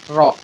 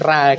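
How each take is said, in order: First: The r is followed by an o-like vowel. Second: The r is followed by an a-like vowel. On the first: The speaker calls it right. "kata ro itu" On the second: The speaker calls it wrong. "saya kan bacanya si ra gitu"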